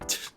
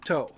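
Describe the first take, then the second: First: A bare t sound with no vowel after it. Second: A t sound followed by an o vowel. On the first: The speaker calls it wrong. "a single sound of T going t like that doesn't follow the rules of Japanese" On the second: The speaker calls it right. "It has to be to because it's a consonant and a vowel"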